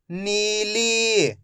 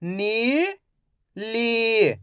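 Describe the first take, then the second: First: नीली joined without a pause; slow नीली as one drawn-out word; blended word. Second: नीली split as नी, pause, ली; syllable by syllable. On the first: Teacher blending नीली for young readers, joined up. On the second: Teacher sounding out नीली for young readers, syllable by syllable. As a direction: sound out नीली in two long pieces, first rising. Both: Shown as a demonstration. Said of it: "तो मिलके बन जाएगा".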